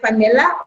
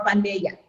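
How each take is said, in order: First: "Fanella" with a clear L in the last syllable; L pronunciation. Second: "Fanella" with the double L as a Y; Y pronunciation. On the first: Host checking a listener's name, "Fanella" said with an L. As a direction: say "Fanella" ending in "-la". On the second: Host checking a listener's name, "Fanella" said like "Fa-ne-ya". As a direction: say "Fanella" ending in "-ya". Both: Shown as a demonstration. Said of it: "Is it Fanella or Fanella?".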